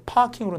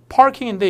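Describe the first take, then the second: First: "parking" with no R, long first vowel; R-less British. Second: "parking" with the R sounded; American R. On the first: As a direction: drop the r in "parking" and lengthen the a. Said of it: "발음들이 좀 차이가 나서". ('parking'의 R을 뺀 영국식) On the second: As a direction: keep a clear r before the k in "parking". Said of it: "이게 parking으로 나옵니다". ('parking'의 R을 살린 발음) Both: Shown as a demonstration.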